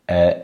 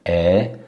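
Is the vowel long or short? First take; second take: short; long. First: The vowel is held briefly. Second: The vowel is held for longer. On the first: "a short" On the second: "a long version"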